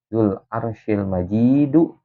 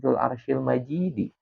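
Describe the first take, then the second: First: The last word ends with a u vowel. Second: The last word ends with an i vowel. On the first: God is the glorious one. "ada yang dengan domah sebagaimana sebagai sifat kepada Rob" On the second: The throne is the glorious one. "Ada juga Dzul arsyil majidi"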